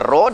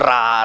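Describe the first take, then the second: First: The vowel sounds rounded and heavy, like 'ro'. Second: The vowel sounds open and light, like 'ra'. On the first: This is how people normally say the letter. The speaker calls it right. "Orang kata ro" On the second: This is how someone with a heavy tongue says it. The speaker calls it wrong. "duk ra"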